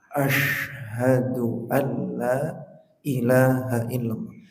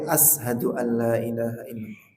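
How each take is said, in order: First: The first hiss is a broad sh sound. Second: The first hiss is a thin s sound. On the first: I bear witness that there is no god but God. The speaker calls it right. "Harus besar" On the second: The meaning changes and the prayer may be invalid. The speaker calls it wrong. "Jangan sampai"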